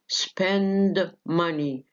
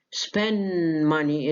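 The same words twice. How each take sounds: First: "Spend money" slowly with the D of Spend released; full D. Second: "Spend money" said as "spen money", N held; dropped D. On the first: Teacher showing the full form before elision, D sounded. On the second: Teacher showing elision to students, D dropped. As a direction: leave the D out of "Spend", run into "money". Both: Shown as a demonstration. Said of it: "الد سقطت".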